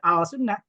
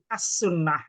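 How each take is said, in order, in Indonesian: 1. Bunyi l tetap dibaca sebelum sunnah. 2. Bunyi l melebur ke dalam s. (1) "nggak boleh dibaca al sunnah" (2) "alnya lamnya harus hilang jadi as sunnah"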